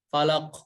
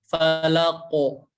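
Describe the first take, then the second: First: The final consonant is clipped with no rounded vowel. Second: The final consonant ends in a rounded vowel sound. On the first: The speaker calls it wrong. "Jadi suaranya falak, falak, falak, falak. Tapi yang tepat itu falako" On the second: The speaker calls it right. "Tapi yang tepat itu falako. Jadi bulat falako"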